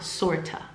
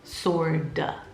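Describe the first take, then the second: First: The middle consonant is a crisp T sound. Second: The middle consonant sounds like a soft D. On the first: The speaker calls it wrong. "not sorta" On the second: The speaker calls it right. "remember that T makes a D sound"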